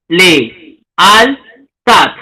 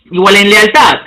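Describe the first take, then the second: First: Le-al-tat with a break between each syllable; syllabified. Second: Said in the usual way. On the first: Shown as a demonstration. Teacher separating the vowels for students, syllable by syllable. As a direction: split Le-al-tat into three beats. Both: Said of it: "el silabeo".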